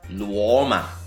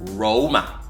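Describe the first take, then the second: First: The name begins with an L sound. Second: The name begins with an R sound. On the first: The speaker calls it wrong. "The R becomes an L" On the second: The speaker calls it right. "more phonetically accurate translation for Roma as Roma"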